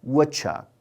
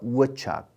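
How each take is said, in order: First: The d sound in the middle is dropped. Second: The d sound in the middle is dropped.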